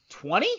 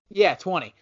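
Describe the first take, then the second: First: "twenty?" asked with a lifting question tune; questioning rise. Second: "Yeah, twenty." landed firmly with a falling tune; settled fall. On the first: Unsure of his own pick, asking the co-hosts with a rising tone. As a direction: wonder aloud whether "twenty?" is enough. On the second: Answering his own question to the co-hosts, firmly confirming the pick. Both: Shown as a demonstration.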